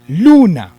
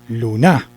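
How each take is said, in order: First: The stress is on the first syllable. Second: The stress is on the last syllable. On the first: The speaker calls it right. "tengo el acento en lu" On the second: The speaker calls it wrong. "si lo corriéramos"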